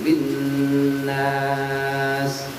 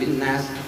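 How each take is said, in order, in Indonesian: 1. Vokal pada nas dibaca panjang. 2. Vokal pada nas dibaca pendek. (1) "tapi panjangin"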